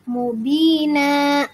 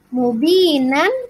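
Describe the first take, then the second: First: The word ends on a long a vowel. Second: The word ends with a final n sound.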